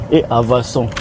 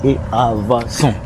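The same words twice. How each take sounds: The two takes are said the same way.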